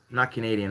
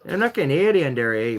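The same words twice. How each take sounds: First: Said in the usual way. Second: Mock Canadian accent. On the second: Shown as a demonstration. Streamer denying being Canadian, in a put-on Canadian accent. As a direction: lay on a Canadian lilt with a tagged eh. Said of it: "But I did say it like that".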